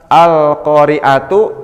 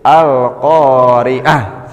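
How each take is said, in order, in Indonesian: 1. Katanya berakhir dengan suku kata 'tu' penuh. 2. Katanya berakhir dengan bunyi 'h' lembut. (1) "itu jadi" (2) "jadi ha besar"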